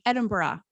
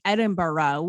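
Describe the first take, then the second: First: "Edinburgh" as ED-in-buh-ruh; middle-ground "Edinburgh", no rolled R; softer Irish-style pronunciation. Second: "Edinburgh" as ED-in-burr-OH; American "Edinburgh" with a clear oh ending; full-on borough. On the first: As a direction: end "Edinburgh" on a light ruh. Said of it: "I felt like I could say". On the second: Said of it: "like, a full on borough". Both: Shown as a demonstration.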